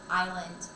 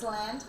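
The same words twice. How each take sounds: First: The S sound is left out of the word. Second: The S sound is pronounced in the word. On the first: The speaker calls it right. "the S is silent. It's island" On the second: The speaker calls it wrong. "many many people think it's island"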